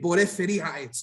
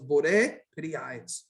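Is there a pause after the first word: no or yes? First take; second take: no; yes. First: It runs together with no pause after bore. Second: A slight pause follows bore. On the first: "they read it as one thing" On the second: "Slight, slight pause after the word bore"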